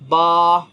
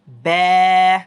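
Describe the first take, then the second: First: The vowel is open, said without spreading the lips. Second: The vowel is spread, said with the lips stretched. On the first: The speaker calls it wrong. "ऐसे पढ़ते रहे होंगे, ये गलत है" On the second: The speaker calls it right. "किस तरह से फैलेंगे"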